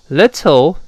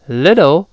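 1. 中间的 t 是清脆的清音 t。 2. 中间的 t 弱化成了浊音。

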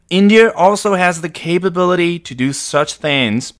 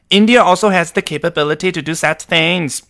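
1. 这是说话人平时的英语口音说的。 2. 这是模仿印度英语口音说的。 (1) "我还是回到我正常的发音吧" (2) "第一位一看就是我们印度的哥们儿"

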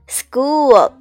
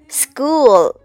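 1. s 后面的辅音听起来像一个软的 g。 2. s 后面的辅音听起来像一个软的 g。

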